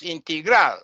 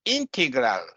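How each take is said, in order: First: Integral stressed on the last syllable; end-stressed integral; bad pronunciation. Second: Integral stressed on the first syllable; front-stressed integral; correct English example. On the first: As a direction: say integral as in-tee-GRAL. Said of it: "Yes, it's bad". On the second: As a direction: say integral as IN-te-gral. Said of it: "For example". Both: Shown as a demonstration.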